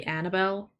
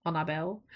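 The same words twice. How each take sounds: First: "Annabelle" with a flat English A as in "cat"; "Annabelle" the way English speakers say it; English name pronunciation. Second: "Annabelle" with open AH vowels; "Annabelle" with a broad, open first A; preferred name pronunciation. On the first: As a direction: say "Annabelle" as AN-uh-bel. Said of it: "where people will say Annabelle". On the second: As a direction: say "Annabelle" as AH-nah-bel. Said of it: "you should say Annabelle". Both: Shown as a demonstration.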